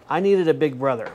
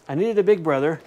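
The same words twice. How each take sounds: The two takes are said the same way.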